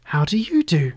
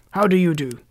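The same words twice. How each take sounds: First: Put-on polite girl returning the greeting; lightly voiced courteous girl; Dorothy. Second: Husky-voiced greeting, louder; lightly husky, emphatic how-do-you-do; Scarecrow. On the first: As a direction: politely turn the question back. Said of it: "replied Dorothy politely". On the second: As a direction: greet heartily with a touch of huskiness. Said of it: "in a rather husky voice". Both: A narrator's reading.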